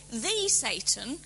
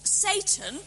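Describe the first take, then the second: First: The Satan, with THE said as a full "thee"; stress on THE. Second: Satan said SAY-tn, with no article; English proper name. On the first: Lecturer contrasting title with name, stressed article. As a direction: lean on THE before Satan, drawn out. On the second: Lecturer correcting the idea of a name, English pronunciation. Contrasts bare name with titled form. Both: Shown as a demonstration.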